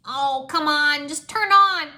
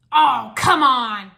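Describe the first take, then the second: First: Higher, loud, slow begging at the machine; frustrated pleading. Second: Loud, slow drawn-out groan of complaint; complaining. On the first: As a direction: plead with the dead machine, loudly. Jay frustrated with broken game. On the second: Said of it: "the mechanic complained". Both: Acted.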